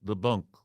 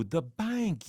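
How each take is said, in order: First: "bunk" with a short u, like "bunk". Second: "bank" with a clear a, as in "bank"; the receptionist correcting "bunk" to "bank"; "bank" said plainly, like a Southern receptionist; "bank" said properly. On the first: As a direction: say "bunk" instead of "bank". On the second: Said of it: "the play on the word bunk, bank". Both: Retold or imitated.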